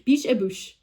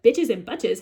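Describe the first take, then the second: First: The name is read with French pronunciation. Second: The name is read with English pronunciation. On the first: The speaker calls it right. "how you pronounce it in French" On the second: The speaker calls it wrong. "as an American, an English speaker, if you will, I read as bitches and butches"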